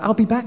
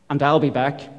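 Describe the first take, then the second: First: It is said in a gentle, reassuring tone. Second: It is said in a stern, warning tone.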